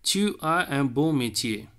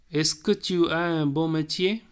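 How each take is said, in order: First: Said in the usual way. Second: Est-ce que tu as un beau métier with a rise on que; est-ce que question. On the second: Shown as a demonstration. Teacher demonstrating the est-ce que question, rising. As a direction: lift the voice into a question. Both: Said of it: "type two".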